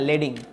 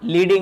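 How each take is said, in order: First: The first vowel sounds like 'eh'. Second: The first vowel sounds like 'ee'. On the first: The speaker calls it right. "ওই লেড থেকে মূলত আসছে লেডিং" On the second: The speaker calls it wrong. "লিডিং না"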